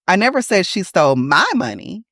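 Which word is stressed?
my. The word my carries the main stress. She stole someone else's money, not mine. "it wasn't my money she stole"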